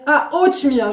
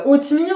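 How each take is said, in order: First: Imitating a dawning realisation; "ah" of recognition, then falling; sudden understanding. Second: Puzzled echo, pitched up; questioning rise, mock incomprehension; not understanding. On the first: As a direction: act out finally getting the word. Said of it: "mais elle a compris". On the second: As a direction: imitate someone querying an unknown word. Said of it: "elle a pas compris".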